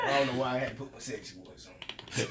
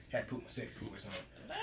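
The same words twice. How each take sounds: First: Said in the usual way. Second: Breathy seductive whisper; sexy whisper. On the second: Pretend.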